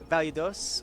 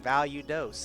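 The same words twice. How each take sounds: First: The name is said in a plain accent. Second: The name is said in a Texan accent.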